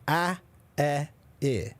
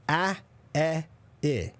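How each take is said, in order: Both takes have the same delivery.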